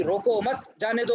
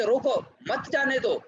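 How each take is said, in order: First: "रोको मत" joined and high, then "जाने दो"; group "मत" with "रोको", not with "जाने दो"; rising "रोको मत", then release on "जाने दो"; pause after मत. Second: High "रोको", break, then "मत जाने दो" falling; "रोको" set apart, "मत जाने दो" high then falling at the end; pause after रोको. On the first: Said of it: "एकदम रिवर्स हो गया". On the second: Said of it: "कहा यह जा रहा है". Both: Shown as a demonstration.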